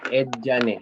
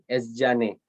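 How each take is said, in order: First: The middle cluster begins with a stop sound. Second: The middle cluster begins with a hissing sound. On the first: The speaker calls it right. "C-nya dulu gitu kan, tidak tebal, tidak ada desis, baru si Z" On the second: The speaker calls it wrong. "salah nih ya, ed Nah, kebalik"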